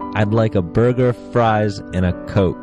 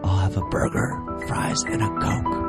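First: It is said loudly. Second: It is said quietly.

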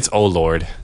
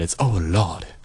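First: The r in Lord is clearly pronounced. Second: The r in Lord is dropped, like Lawd. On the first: This is the title's proper form. "But really, it's Oh Lord" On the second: This is a personal playful way of saying it. "But in my mind, it's Oh Lord. L-A-W-D"

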